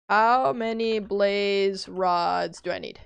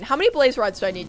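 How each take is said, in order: First: Slow, drawn-out question; slow deliberate ask. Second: Fast, rushed ask to chat; quick question. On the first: Streamer repeating her question to chat, slow and deliberate. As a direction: spell it out slowly for chat. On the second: Streamer rushing a question to chat, fast. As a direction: fire it off quickly. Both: Real, not acted.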